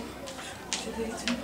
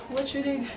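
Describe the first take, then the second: First: Breathless, slow whispered panic; desperate whisper. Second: Said in the usual way. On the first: Acted. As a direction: whisper it to yourself, lost. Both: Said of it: "Not knowing what to do".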